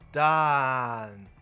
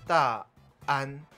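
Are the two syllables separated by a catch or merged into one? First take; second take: merged; catch. First: The syllables merge into one long vowel. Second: A throat catch separates the two syllables. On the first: The speaker calls it wrong. "念起来就会是拉长音的dan" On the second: The speaker calls it right. "前面会自动加一个声门涩音"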